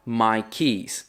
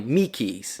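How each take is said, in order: First: Slow, careful "my keys"; correct my keys. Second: Slow "me keys" with me for my; Australian me keys. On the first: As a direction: say "my keys" properly and slowly. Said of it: "fala my keys". ("my keys" correto e devagar) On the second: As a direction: say "me keys" like a local. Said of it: "falariam me keys". ("me keys" à australiana) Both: Shown as a demonstration.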